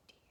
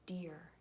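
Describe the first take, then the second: First: Slow word demo. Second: Said in the usual way. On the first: Shown as a demonstration. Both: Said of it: "Say it slowly".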